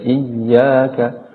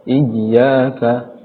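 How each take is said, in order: Both takes have the same delivery.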